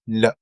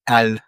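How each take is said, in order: First: It is said as a bare consonant sound. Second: It is said as the full letter name. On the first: "but we pronounce it like this" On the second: "The name of the letter"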